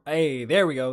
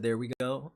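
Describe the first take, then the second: First: Upbeat echo. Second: Said in the usual way. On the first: Real, not acted. Host echoing a chat comment, upbeat. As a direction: echo the chat line a bit louder and brighter. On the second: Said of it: "He said".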